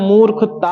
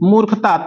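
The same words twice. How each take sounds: First: The word is read with a long, drawn-out ending. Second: The word is read plainly with a short ending. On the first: The speaker calls it wrong. "अगर मूर्खता को देर तक पढ़ेंगे, जैसे कह दिया जाए" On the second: The speaker calls it right. "इसको सीधा सीधा पढ़ेंगे हम"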